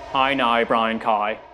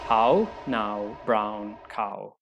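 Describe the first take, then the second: First: It is said in a Northern Irish accent. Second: It is said in a standard English accent.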